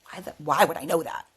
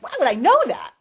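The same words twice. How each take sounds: First: Said in the usual way. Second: High, loud self-questioning; incredulous. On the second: Retold or imitated. Retelling her doubt about her own hunch, incredulous. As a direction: burst out in bafflement at yourself. Retold inner disbelief, second take.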